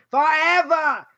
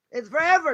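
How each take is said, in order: First: Forever with a light Boston accent, the r dropped. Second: Said in the usual way. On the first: Shown as a demonstration. Teacher jokes to his class in a Boston accent. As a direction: say forever the Boston way, r-less and drawn out. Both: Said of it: "Or as we say in Boston".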